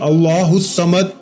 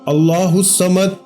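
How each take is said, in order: No difference in how they are said.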